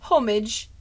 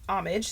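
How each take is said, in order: First: It is said with a British pronunciation. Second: It is said with an American pronunciation.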